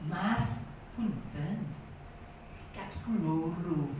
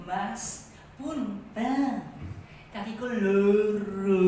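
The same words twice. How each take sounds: First: Put-on soft, slow old woman's voice hiding anger; mild, quiet Javanese grandma: "Mas, punten. Kakiku loro."; grandma's polite complaint. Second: Suppressed anger. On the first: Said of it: "Si Mbah Putri ngomongnya piye?". (nenek Jawa menegur dengan lembut menahan marah) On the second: Retold or imitated. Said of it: "ngomong itu udah marah". (nenek menahan dongkol, suara pelan)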